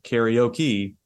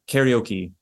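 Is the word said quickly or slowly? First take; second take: slowly; quickly. First: The word is said slowly with English rhythm. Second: The word is said quickly and smoothly. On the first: The speaker calls it wrong. "instead of karaoke" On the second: The speaker calls it right. "karaoke instead of"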